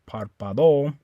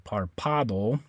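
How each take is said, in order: First: The stress is on the last syllable. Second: The stress is on the second syllable. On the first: "You don't stress the O. You don't say párpado" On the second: "you would stress the second last syllable. It would be this A right here"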